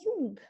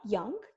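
First: It is said in a Yorkshire accent. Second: It is said in a standard British accent. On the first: "dar spunea young. Pentru că da, așa se vorbește acolo" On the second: "ea nu spunea young"

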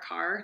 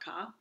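First: The final r sound is pronounced. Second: The final r sound is dropped. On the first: "the one with R" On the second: "not ka"

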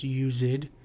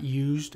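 First: The word is said as two syllables. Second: The word is said as one syllable. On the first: "That's how he's pronouncing it, it's used" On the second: "it's not used"

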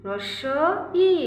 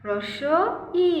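The two takes are said the same way.

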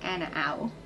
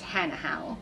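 First: The H sounds in the name are silent. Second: The H sounds in the name are pronounced. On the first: "If you don't, then Hanahau" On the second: "If you do, then it's Hanahau"

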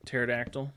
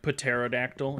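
First: The opening P is not pronounced. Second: The opening P is pronounced. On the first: The speaker calls it right. "The P is silent" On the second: The speaker calls it wrong. "in my brain I say the word pterodactyl"

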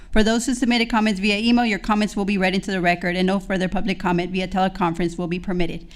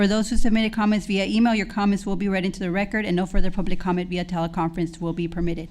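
Both takes have the same delivery.

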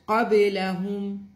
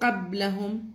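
First: The b is released with a short echoing bounce. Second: The b is cut short with no bounce. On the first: The speaker calls it right. "you have to shake the ba a little bit" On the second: The speaker calls it wrong. "not qablahum"

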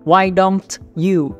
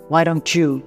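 First: The t and 'you' are said separately. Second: The t and 'you' blend into a 'ch' sound.

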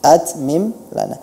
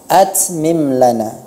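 First: The t is stopped cleanly without hissing. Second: The t is followed by a hissing sound. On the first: The speaker calls it right. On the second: The speaker calls it wrong.

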